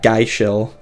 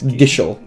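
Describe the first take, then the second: First: The first syllable rhymes with 'guy'. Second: The first syllable rhymes with 'give'. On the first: The speaker calls it wrong. "Not geishel" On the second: The speaker calls it right. "It's gishel or gissel"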